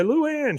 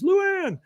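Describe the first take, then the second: First: High-pitched chasing call; mock desperate call after her; Tripp calling out. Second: Very high, drawn-up mock call; squeaky-high imitation of a woman calling; Peggy calling out. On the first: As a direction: call her name high, mid-chase. Tripp calls while chasing Luann. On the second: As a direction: call the name in a falsetto, mid-chase. Peggy calls, running behind him.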